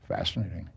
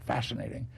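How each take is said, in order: First: It is said in a cool, detached, curious way. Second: It is said with excited, emotional energy. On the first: The speaker observes it with detached scientific curiosity. The speaker calls it right. "cool it out and yeah. do the scientific, curious approach to it" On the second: The speaker is emotionally moved by it. The speaker calls it wrong. "I said it wrong"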